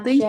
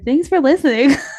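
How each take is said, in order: First: It is said in a snippy, bitchy tone. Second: It is said in a friendly, pleasant tone. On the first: The speaker calls it wrong. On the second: The speaker calls it right.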